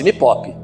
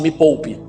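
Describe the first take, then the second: First: Pronounced with an imitated, altered pronunciation. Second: Pronounced in the ordinary standard way. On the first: This is how she actually says it. "Ela fala assim" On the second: This is not how she says it. "ela não fala assim"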